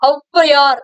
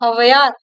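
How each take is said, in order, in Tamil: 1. முதல் உயிரெழுத்து நெடிலாக ஒலிக்கப்படுகிறது. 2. முதல் உயிரெழுத்து குறிலாக ஒலிக்கப்படுகிறது. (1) "தன்னுடைய ரெண்டு மாத்திரை அளவுல இருந்த ஔவையார் அப்படின்னு சொல்ல மாட்டோம்" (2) "குறுகி ஒலிக்குதான்"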